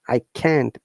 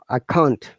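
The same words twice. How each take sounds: First: Can't is said with the American pronunciation. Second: Can't is said without the American pronunciation. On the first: "American pronunciation would be can't" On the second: "stress on the can't"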